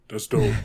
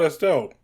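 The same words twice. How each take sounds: First: It is said in a deepened, lower voice. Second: It is said in a normal speaking voice. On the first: "I deepened my voice to do Cannonball's voice" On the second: "whereas I would be like"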